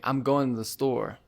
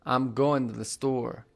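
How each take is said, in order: The two takes are said the same way.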